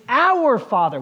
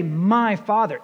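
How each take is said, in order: First: "our" raised and punched against "my"; stress on our. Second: "My" set apart as the startling word; stress on My. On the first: Preacher correcting to the congregation's prayer, stress on "our". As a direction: hit the word "our" firmly. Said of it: "It's our Father". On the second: Preacher quoting what nobody dares say, stress on "My". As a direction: lean on "My" in "My Father". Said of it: "Nobody talks like that". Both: Shown as a demonstration.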